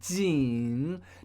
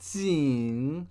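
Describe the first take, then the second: First: It is said with the standard third tone. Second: It is said with a regional, different tone. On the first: "J I N, third tone" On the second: "with his regional accent, says something more like Jing. So it's a different tone"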